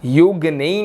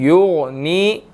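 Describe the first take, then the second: First: युगनी with a light gh; wrong light gh. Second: युगनी with a thick gh; युगनी, heavy. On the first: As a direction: say युगनी thin. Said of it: "इसको हमने युगनी नहीं पढ़ना". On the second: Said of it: "युगनी मोटा करके पढ़ना है". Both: Shown as a demonstration.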